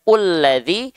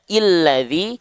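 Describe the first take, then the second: First: The word begins with a u vowel. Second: The word begins with an i vowel. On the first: "tak mungkin kita baca ulladzi" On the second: "kita nggak mungkin baca illadzi"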